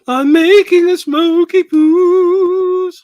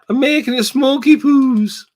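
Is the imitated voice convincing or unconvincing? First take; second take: convincing; unconvincing. First: A stronger, more convincing imitation of a woman's voice. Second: A weak, unconvincing imitation of a woman's voice. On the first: The speaker calls it right. "Is that a better impression?" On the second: The speaker calls it wrong. "that was a bad impression"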